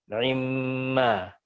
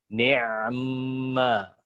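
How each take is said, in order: First: The ain carries a very quick, clipped vowel. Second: The ain carries no vowel at all. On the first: "Wajah yang kedua dengan ikhtilas. Ikhtilasan dicepetin" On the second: "Yang satu dengan sukun ain"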